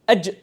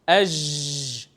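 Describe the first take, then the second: First: The j sound closes off and stops abruptly. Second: The j sound is drawn out and keeps flowing. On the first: The speaker calls it right. "because the sound does not flow" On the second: The speaker calls it wrong. "Because sound flows"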